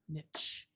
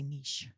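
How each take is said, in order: First: It is said in a harsh, American-sounding way. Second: It is said in a refined, sophisticated-sounding way. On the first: "that's like very American, very harsh sounding" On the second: "I have my pinky out. I say niche"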